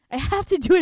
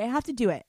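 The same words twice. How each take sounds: First: Louder, higher repeat; can't help saying it again; compulsive burst. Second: Said in the usual way. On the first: Shown as a demonstration. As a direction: blurt it out like a tic. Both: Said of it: "It's like a tick".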